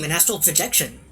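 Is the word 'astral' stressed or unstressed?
unstressed. The word astral gets no special stress. It is simply a projection of the speaker. The speaker calls it right. "He didn't say, hmm"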